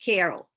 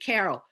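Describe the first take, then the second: First: It is said in a non-East Coast accent. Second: It is said in an East Coast accent. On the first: "How do other people say it?" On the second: "you must be from the East Coast"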